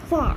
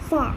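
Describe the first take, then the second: First: It is said with the final r sound dropped. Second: The same.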